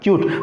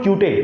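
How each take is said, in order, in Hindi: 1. शब्द बिना किसी अतिरिक्त स्वर के खत्म होता है। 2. शब्द एक अतिरिक्त स्वर के साथ खत्म होता है।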